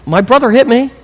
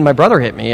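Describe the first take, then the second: First: High-pitched mock child complaint; tattling kid. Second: Said in the usual way. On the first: Kid to parent, blaming brother, high mock protest. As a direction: imitate a child telling on a sibling. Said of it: "your kids give you that".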